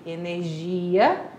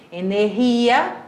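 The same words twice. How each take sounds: First: Energia with a soft "zh" for the G; Portuguese energia, G like French J; Portuguese pronunciation. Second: Energia with a breathed H sound for the G; Spanish energia, G sounded as H; Spanish pronunciation. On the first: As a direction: say energia as "e-ner-ZHI-a". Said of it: "em português". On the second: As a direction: say energia as "e-ner-HI-a". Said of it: "em espanhol". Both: Shown as a demonstration.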